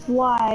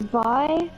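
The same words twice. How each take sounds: First: It begins with a plain English W sound. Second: It begins with a German-style V sound. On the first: "so if I said why" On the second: "it would be why?"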